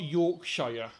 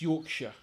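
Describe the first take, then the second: First: The last syllable is a full 'shire'. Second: The last syllable is a reduced 'sher'. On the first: The speaker calls it wrong. "We don't say Shire. It's not Yorkshire" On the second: The speaker calls it right. "It's Yorkshire"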